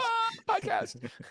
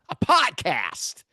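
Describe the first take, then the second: First: It is said with grand enthusiasm. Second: It is said plainly, without enthusiasm.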